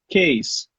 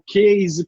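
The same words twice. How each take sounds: First: The middle consonant is a hissing S sound. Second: The middle consonant is a buzzing Z sound. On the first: The speaker calls it right. "você tem que falar com som de S" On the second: The speaker calls it wrong. "já está falando errado"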